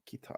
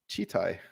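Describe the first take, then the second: First: The word begins with a 'k' sound. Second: The word begins with a 'ch' sound. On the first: The speaker calls it wrong. "I always thought it was Kitai, like K" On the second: The speaker calls it right. "The word is pronounced as Chitai"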